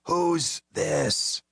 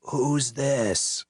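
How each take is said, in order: First: High croaking rasp; hoarse croaking repeat; croaked. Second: Hoarse, annoyed question; irritated drunk croak; irritated rasp. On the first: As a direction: croak it through a wrecked throat. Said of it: "The voice croaked again". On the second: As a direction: rasp it out, fed up. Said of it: "He sounded irritated". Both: A narrator's reading.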